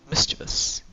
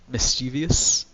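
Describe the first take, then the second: First: No extra sound comes before the ending. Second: An extra 'ee' sound comes before the ending. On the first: The speaker calls it right. "It's just mischievous" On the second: The speaker calls it wrong. "There's no I in like that second part"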